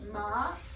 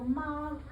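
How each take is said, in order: First: The pitch rises. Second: The pitch stays high and level. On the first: It means numb. "If I say it going up" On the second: It means mother. "that's mama"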